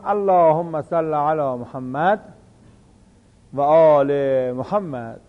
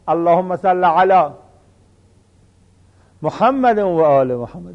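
First: A brief pause comes after the first 'Muhammad'. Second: A breath pause comes right after 'ala'. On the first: "بین محمد و آل محمد یه لحظه" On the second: "یعنی در علا نفس میکشن"

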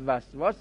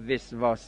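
First: The first vowel is a. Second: The first vowel is i. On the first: The speaker calls it right. "به فتح میخونن وسواس" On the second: The speaker calls it wrong. "شما وسواس نگید"

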